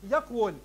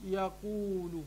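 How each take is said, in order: First: يقول said as "yaqwul", consonantal w after a closed q; original underlying form. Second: يقول drawn out as "ya-quu-lu", long u after q; resulting spoken form. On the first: Teacher giving students the word's origin, يقول as yaqwul. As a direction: pronounce يقول as YAQ-wul, no long u. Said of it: "الكلمة أصلها". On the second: Teacher showing the changed word, يقول as slow yaquulu. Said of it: "فأصبحت يقول". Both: Shown as a demonstration.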